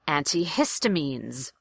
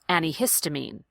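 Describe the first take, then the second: First: The T in anti is clearly pronounced. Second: The T in anti is dropped. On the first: "I recommend going with the first one and saying anti" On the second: "most people will lose that T and pronounce it the second way"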